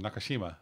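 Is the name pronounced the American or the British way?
American. The name is said the American way. "as we would here in America"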